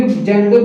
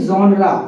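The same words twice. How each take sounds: First: Genre as 'JEN-der'; old mispronunciation. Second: Genre as 'ZON-ra'; correct pronunciation. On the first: Teacher admits how he used to say it, mispronounced. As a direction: say genre with hard j, like 'jender'. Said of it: "हम भी genre बोलते थे". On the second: Teacher tells what he says now, carefully pronounced. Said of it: "This is the correct pronunciation". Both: Shown as a demonstration.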